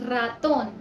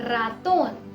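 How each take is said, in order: Both takes have the same delivery.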